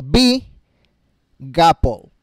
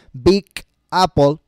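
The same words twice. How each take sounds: First: "big" linked into "apple" as one syllable; linked words. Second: Said in the usual way. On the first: Shown as a demonstration. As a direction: join the g of "big" onto "apple". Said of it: "ahora digo". ("big apple" unidas, la g pasa a "apple") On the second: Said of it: "ya no digo".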